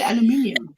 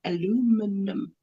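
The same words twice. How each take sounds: First: "aluminium" as "al-yoo-MIN-ee-um"; South African pronunciation. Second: "aluminum" slowly as "a-LOO-mi-num"; American pronunciation. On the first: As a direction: land the stress on MIN in "aluminium". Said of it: "No, we say aluminium". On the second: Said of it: "there are people who say". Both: Shown as a demonstration.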